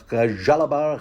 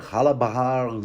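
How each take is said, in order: First: Jalabar begun with a J-like sound; tentative pronunciation. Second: Halabahar begun with an H sound; tentative pronunciation. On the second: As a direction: try out Halabahar, opening on a breath-like H. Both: Shown as a demonstration. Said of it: "is that how it's pronounced?".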